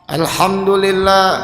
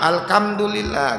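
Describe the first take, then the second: First: The consonant after 'al' is an h sound. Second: The consonant after 'al' is a kh sound. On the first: The speaker calls it right. "Pastikan hurufnya benar" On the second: The speaker calls it wrong. "Apalagi jadi ka"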